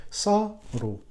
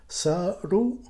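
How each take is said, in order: First: Saru with "sa" high, then falling; start high. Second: Saru rising at the end; second syllable pitch change. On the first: Teacher changing first-syllable pitch, saru started high. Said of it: "We can start high". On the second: Teacher varying the repetition, saru with a rising second syllable. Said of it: "change the pitch of the second syllable". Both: Shown as a demonstration.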